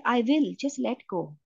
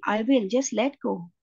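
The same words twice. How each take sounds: First: Said in the usual way. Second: Slow, gently voiced reassurance from God; very gentle. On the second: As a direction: ease the words out slowly and gently. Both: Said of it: "So the voice said it very gently".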